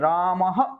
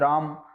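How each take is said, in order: First: The word is said with added force. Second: The word is said plainly without extra force. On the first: The speaker calls it right. "राम नहीं है रामः, यानी ये समुचित बल प्रदान" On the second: The speaker calls it wrong. "तो आप बोलोगे राम"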